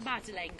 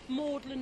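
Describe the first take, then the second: First: The name is said like the name Madeleine. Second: The name is said in its old local form. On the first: The speaker calls it wrong. "not Madeleine" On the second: The speaker calls it right. "the pronunciation is medieval. That's why we say Magdalen"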